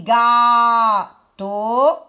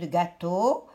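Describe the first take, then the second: First: "gâteau" loud and slow, long "gâ", long "teau"; syllable-by-syllable "gâteau"; split into syllables. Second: Said in the usual way. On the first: Shown as a demonstration. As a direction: stretch both halves of "gâteau". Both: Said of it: "je prends la deuxième syllabe de".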